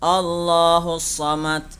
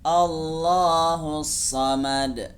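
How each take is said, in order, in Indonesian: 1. Konsonan akhir terdengar seperti t yang datar. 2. Konsonan akhir dilepas dengan pantulan. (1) "membacanya seperti membaca huruf ta" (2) "yang benar harus dibaca memantul"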